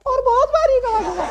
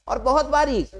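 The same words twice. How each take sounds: First: Very high, thin squeaky voice. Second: Said in the usual way. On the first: Shown as a demonstration. Teacher showing class a thin high voice. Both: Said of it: "अगर मैं आवाज पतली कर लूं".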